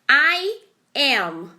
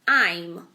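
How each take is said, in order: First: It is said as two separate syllables. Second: It is said as one merged syllable. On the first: "são duas palavras" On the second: "é o som de uma única palavra"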